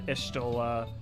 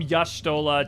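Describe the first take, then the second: First: The name begins with an 'ee' sound. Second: The name begins with a 'ya' sound. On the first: This is the later way the name was said. "to an Ishtola" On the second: This is the older way the name was said. "There was definitely more of a Ya"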